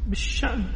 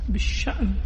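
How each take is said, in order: Both takes have the same delivery.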